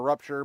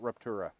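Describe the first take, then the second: First: The word ends without an extra vowel. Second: The word ends with an extra 'ah' vowel. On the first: "It's spelled Star Rupture" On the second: "but they pronounce it Ruptura"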